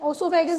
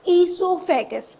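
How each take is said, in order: First: The word begins with an 'o' sound. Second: The word begins with an 'ee' sound. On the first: The speaker calls it wrong. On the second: The speaker calls it right.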